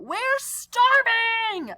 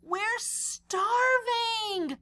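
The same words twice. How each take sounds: First: High, slow, louder yell of hunger; hungry yell. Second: Mild starving cry. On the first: Hungry friends yelling at Clark, high and loud. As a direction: wail it out, dragging starving. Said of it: "they're yelling it". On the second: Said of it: "all capitals ... they're yelling it". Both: Acted.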